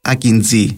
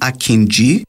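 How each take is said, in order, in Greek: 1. Η λέξη δεν έχει τον ήχο 'j' (dʒ). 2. Η λέξη έχει τον ήχο 'j' (dʒ). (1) "και όχι Akinji" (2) "Εν να πούμε Akinji"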